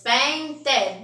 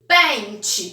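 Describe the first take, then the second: First: "Pente" as pen... te, ending in a clear te rather than chi; two separate beats on "Pente": pen, te; split into syllables. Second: Said in the usual way. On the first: Shown as a demonstration. Teacher counting syllables for pupils, "Pente" split as pen... te. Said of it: "Quantas sílabas?". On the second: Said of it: "Tem quantas letras pente?".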